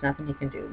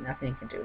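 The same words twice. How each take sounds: First: Said in the usual way. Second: Much softer echo. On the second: Retold or imitated. Repeating the lawyer's hopeless verdict much softer to himself. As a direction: drop the repeat much softer, almost to yourself. Echoing the lawyer's words, dropping away.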